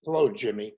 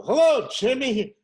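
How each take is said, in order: First: Easy, friendly hello to the guard; casual greeting. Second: Loud, high, cheery hello; hammed-up greeting. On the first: Retold or imitated. Imagined arrival at the studio gate, a relaxed hello to the guard. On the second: First day at the gate, a loud, cheery hello to the guard. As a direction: boom it out like a big shot. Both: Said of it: "I go".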